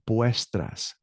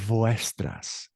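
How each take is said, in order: First: It starts with a sound like English B. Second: It starts with a sound like English V. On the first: The speaker calls it right. "it sounds like a B as in boy" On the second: The speaker calls it wrong. "So it's not vuestras"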